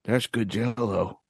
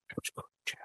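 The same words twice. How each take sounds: First: Said in the usual way. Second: Soft breathy whisper. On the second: Acted. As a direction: whisper it like a secret. Savoring Jello, fading.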